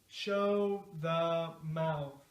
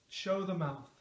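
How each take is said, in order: First: The phrase is said at a medium speed. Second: The phrase is said quickly, at natural speed. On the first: "now a little faster" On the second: "Now at a natural speed"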